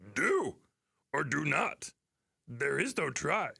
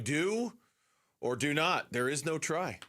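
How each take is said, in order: First: It is said in a put-on creature voice. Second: It is said in the speaker's ordinary voice.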